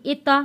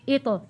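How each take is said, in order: First: "इता" with the lips moved so it opens to a; "इता", the mistaken open ending; wrong lip movement. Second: "इतो" with the lips kept still and a light bounce on t; "इतो", a tongue bounce with no lip movement; qalqala bounce. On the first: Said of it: "हमने इता नहीं पढ़ना". (गलत तरीके से "इता", होंठ हिलाकर) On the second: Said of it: "हमने पढ़ना है इतो". ("इतो" में होंठ स्थिर, ज़बान से हल्की कलकला) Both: Shown as a demonstration.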